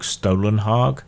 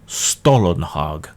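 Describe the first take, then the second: First: The name begins with a sound like 'stole'. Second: The name begins like the bread 'stollen'. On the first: "Some say it's more like Stolenhag" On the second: "like the German fruity bread Stollenhag"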